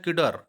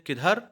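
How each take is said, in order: First: किडर with a plain hard d and no aspiration, a touch louder; English speaker's way. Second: किधर with a breathy aspirated dh, said the Hindi way; Hindi pronunciation. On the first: Teacher imitating how English speakers say किडर, with a plain d. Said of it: "तो अंग्रेज क्या बोलते हैं?". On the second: Teacher showing students the Hindi किधर with its aspirated ध. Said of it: "जैसे हम लोग बोलते हैं किधर". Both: Shown as a demonstration.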